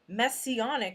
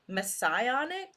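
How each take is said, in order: First: The middle does not sound like Messiah. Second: The middle sounds like the word Messiah. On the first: The speaker calls it wrong. "At first I read messianic, so that's probably my mistake" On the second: The speaker calls it right. "Maybe this is messianic, like Messiah"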